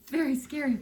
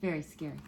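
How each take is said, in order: First: Said in the usual way. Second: Low, quiet mock-scared murmur; hushed. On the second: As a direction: say it softly like a secret fright. Reader repeats phrase to kids.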